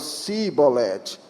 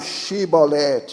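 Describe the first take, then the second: First: The word begins with a plain s sound. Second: The word begins with an sh sound. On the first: Arabs say it this way. "eles falam sibolete" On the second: Arabs cannot say it this way. "eles não falam shibolete"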